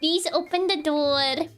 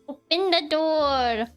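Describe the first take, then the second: First: It is said as a polite request. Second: It is said as a firm demand.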